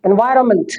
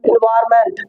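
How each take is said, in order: First: "एनवायरनमेंट" as en-VAI-ra-munt; correct pronunciation. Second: "एनवायरनमेंट" as in-VAAR-MENT; full "ment" ending on "एनवायरनमेंट"; common mispronunciation. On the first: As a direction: silent n and weak "munt" in "एनवायरनमेंट". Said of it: "इसकी correct pronunciation क्या है". ("एनवायरनमेंट" को एनवायरमंट) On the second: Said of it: "लेकिन हम पढ़ते क्या है". ("एनवायरनमेंट" को इनवारमेंट) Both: Shown as a demonstration.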